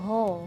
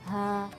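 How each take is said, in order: First: The sound is thick and hollow, like ho. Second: The sound is thin and light, like ha. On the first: The speaker calls it wrong. "jadi bacanya ho, ho, ho. Jadi suaranya seperti bergema gitu. Nah, itu salah" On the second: The speaker calls it right. "karena huruf ha itu tipis"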